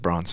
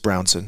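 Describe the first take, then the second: First: The first syllable sounds like 'bron'. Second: The first syllable sounds like 'brown'. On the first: The speaker calls it wrong. "my whole life people have said Bronson" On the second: The speaker calls it right. "But it's Brownson"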